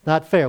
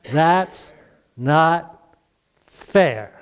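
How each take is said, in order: First: Said in the usual way. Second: A light hint of a sulky kid, drawn out with a pause before fair; mock whine of a child, pitch dropping on fair; childish protest. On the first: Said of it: "We've all said it". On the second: Child complaining to parents about a sibling, lightly imitated sulky whine. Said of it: "What is your response in that situation?".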